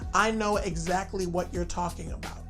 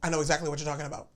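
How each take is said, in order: First: The whole sentence is said slowly. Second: The whole sentence is said quickly.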